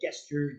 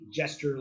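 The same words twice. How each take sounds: First: The word begins with a hard G sound. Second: The word begins with a J sound. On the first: The speaker calls it wrong. "People say it gesture" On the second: The speaker calls it right. "but it's actually gesture, like sounds like it with a J"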